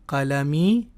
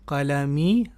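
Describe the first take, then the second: The two takes are said the same way.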